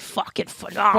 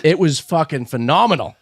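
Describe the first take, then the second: First: Imitating a Boston accent. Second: Slight Boston accent; a hint of Boston in the vowels. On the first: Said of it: "Your Boston accent came out when you said". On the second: Real, not acted. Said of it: "Your Boston accent came out".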